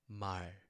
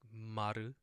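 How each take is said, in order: First: The word ends cleanly on the final consonant. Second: An extra vowel sound follows the final consonant. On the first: The speaker calls it right. "but it's mar" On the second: The speaker calls it wrong. "this is not the like maru"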